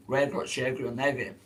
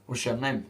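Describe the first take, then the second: First: Slow "Where got your name" with eg syllables inserted; egg language. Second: Said in the usual way. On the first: Shown as a demonstration. Streamer translating into Eggy language, slow "Where got your name" full of eg sounds. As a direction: break up "name" with an added eg sound. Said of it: "It's called Eggy language".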